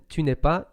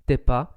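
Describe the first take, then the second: First: The 'ne' sound is pronounced in full. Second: The 'ne' is dropped and the words are shortened.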